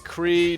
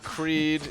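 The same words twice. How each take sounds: First: The name ends without a d sound. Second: The name ends with a d sound. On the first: The speaker calls it right. "It's Creed" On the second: The speaker calls it wrong. "not Creed"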